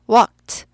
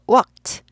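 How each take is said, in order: Both takes have the same delivery.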